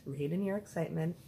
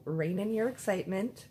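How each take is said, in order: First: Calmer self-instruction. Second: Louder, rising excited warning; excited self-warning. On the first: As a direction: settle yourself down firmly. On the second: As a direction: catch yourself mid-thrill. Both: Retold or imitated.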